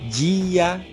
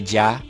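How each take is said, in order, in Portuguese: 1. As vogais estão separadas em duas sílabas. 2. As vogais estão juntas em uma só sílaba.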